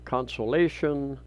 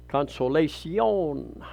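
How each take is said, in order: First: The name is said with an English-style pronunciation. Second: The name is said with a Spanish-style pronunciation. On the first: The speaker calls it wrong. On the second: The speaker calls it right.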